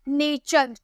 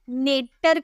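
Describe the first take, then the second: First: The middle consonant is a ch sound. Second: The middle consonant is a t sound. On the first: The speaker calls it right. "चौ का sound निकाले हैं टी के जगह" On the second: The speaker calls it wrong. "टॉ का sound निकाले हैं क्या, नहीं"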